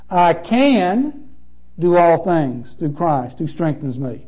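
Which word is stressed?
can. The stress falls on the word can.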